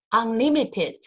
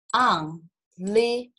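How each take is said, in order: First: Said in the usual way. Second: "unlimited" slowly split into four separate syllables; slow, broken-up "unlimited". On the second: Shown as a demonstration. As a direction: pause between syllables of "unlimited": un, li, mi, ted. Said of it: "所以它有四个音节".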